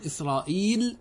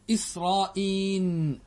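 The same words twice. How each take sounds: First: إسرائيل said as israil, ending clearly on l. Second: إسرائيل said slowly as israin, ending in n not l. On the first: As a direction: pronounce إسرائيل with a final l: israil. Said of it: "باللام". (إسرائيل تُنطق باللام في آخرها: إسرائيل) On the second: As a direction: stretch إسرائيل and close it on an n: israin. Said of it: "بالنون". (إسرائيل تُنطق ببطء بالنون في آخرها: إسرائين) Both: Shown as a demonstration.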